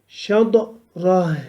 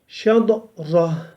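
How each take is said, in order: Both takes have the same delivery.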